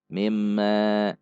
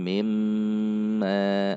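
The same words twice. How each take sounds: First: The doubled m nasal is cut short. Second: The doubled m nasal is held long. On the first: The speaker calls it wrong. "sering sekali bacaan-bacaan gunnah ini dibaca dengan pendek" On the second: The speaker calls it right. "Namun harusnya mimma, ada dengung yang dinikmati pada mim tasydid"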